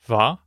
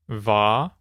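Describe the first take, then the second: First: It is said at normal speed. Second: It is said slowly.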